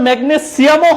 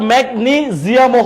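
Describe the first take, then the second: First: "ম্যাগনেসিয়ামও" with s, megne-SIAM-o; a clear s in "ম্যাগনেসিয়ামও"; S pronunciation. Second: "ম্যাগনেসিয়ামও" slowly as mek-NEE-ziam-o; Z pronunciation. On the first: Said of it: "উচ্চারণটা আসলে". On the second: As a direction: stretch "ম্যাগনেসিয়ামও" with a buzzing z. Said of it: "এটা হবে জিয়াম". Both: Shown as a demonstration.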